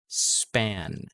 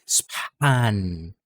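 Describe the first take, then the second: First: The P has no puff of air after it. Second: The P is followed by a puff of air. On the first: The speaker calls it right. "wala yung exaggeration for the H sound" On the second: The speaker calls it wrong. "hindi span"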